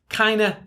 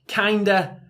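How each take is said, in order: First: The word is squeezed into an even shorter form. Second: The word is contracted only slightly.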